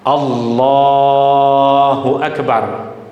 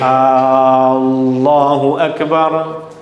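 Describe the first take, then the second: First: The la sound in Allahu is held long. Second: The opening A sound is held long. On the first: The speaker calls it right. "yang boleh kita baca panjang hanya pada huruf lam pada lafzul jalalah" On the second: The speaker calls it wrong. "A tak boleh dibaca panjang"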